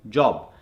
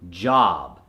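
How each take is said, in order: First: It has a rounded O vowel, Indian accent. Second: It has an open AH vowel, American accent.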